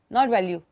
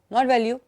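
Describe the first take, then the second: No difference in how they are said.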